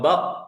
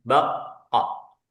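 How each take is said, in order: First: The final consonant is held without release. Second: The final consonant is released with a bounce. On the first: "itu baru syiddah, tertahan suaranya" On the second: "Nah itu kol qalqalah"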